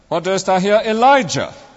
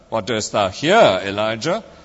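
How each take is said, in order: First: The stress is on the word Elijah. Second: The stress is on the word here. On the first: "emphasizing each word in turn" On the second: "emphasizing each word in turn"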